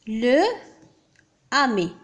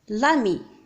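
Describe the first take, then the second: First: The article keeps its vowel before the noun. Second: The article's vowel is dropped before the noun. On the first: The speaker calls it wrong. "نقول le ami" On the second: The speaker calls it right. "التقى هنا deux voyelles نقول directement l'ami"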